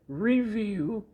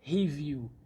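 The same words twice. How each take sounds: First: The word begins with an English r sound. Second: The word begins with an h-like sound. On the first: The speaker calls it right. "You will say" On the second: The speaker calls it wrong. "and not"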